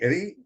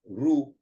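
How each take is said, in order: First: The r is followed by an i sound. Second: The r is followed by a u sound. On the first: This is the regional Hindi pronunciation. "In Hindi, Ri, this is E" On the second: This is the regional Marathi pronunciation. "in Marathi it is pronounced as Ru. So U comes"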